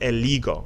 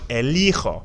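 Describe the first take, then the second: First: The middle consonant is a hard g sound. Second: The middle consonant is a rasping h sound. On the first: The speaker calls it wrong. "it's pronounced eligo" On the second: The speaker calls it right. "but you want elijo"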